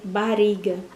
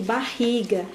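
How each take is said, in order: First: The middle R is a weak, tapped sound. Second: The middle R is a strong, guttural sound. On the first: The speaker calls it wrong. "O ri é um som fraco" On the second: The speaker calls it right. "dois R's, som forte"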